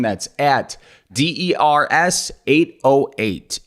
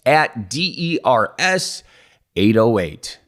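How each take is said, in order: First: Each letter said slowly and separately; slow spelled-out handle. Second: Repeated slower, letter by letter, like an ad; second slow repeat. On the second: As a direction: say it again, infomercial style. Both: Shown as a demonstration. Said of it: "I just said it twice like an infomercial".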